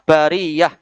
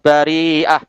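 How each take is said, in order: First: The middle of the word has a y-sound. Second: The middle of the word has a glottal catch. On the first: This is the common reading. "Kalau kiraah kita bariyah" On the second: This is the reading of a particular reciter. "bari'ah itu kiraah waras"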